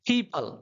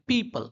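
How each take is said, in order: First: The p has a strong puff of air. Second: The p is plain, without a puff of air. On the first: The usual English way of saying it. "वो लोग क्या बोलते हैं" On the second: The usual Indian way of saying it. "हम लोग क्या बोलते हैं"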